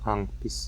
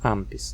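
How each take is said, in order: First: The nasal before p is made at the back. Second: The nasal before p is made with the lips. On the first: The speaker calls it wrong. "não" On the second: The speaker calls it right. "essa nasal velar vai se tornar uma nasal bilabial pela influência do P"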